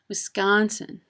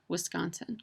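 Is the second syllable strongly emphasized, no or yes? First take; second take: yes; no. First: The second syllable is strongly emphasized. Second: The second syllable is not strongly emphasized. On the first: The speaker is not from the state. The speaker calls it wrong. "you can emphasize that second syllable" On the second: The speaker is a local. The speaker calls it right. "the first syllable of the state is pronounced W"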